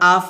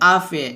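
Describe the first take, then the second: First: The word ends cleanly on the consonant. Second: An extra vowel is added after the consonant. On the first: The speaker calls it right. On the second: The speaker calls it wrong.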